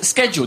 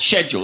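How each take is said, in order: First: The word is said the American way. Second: The word is said the British way. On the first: The speaker calls it wrong. "We watch a lot of American TV and we often hear this word pronounced as schedule. That's incorrect" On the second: The speaker calls it right. "The correct British way is, in fact, schedule"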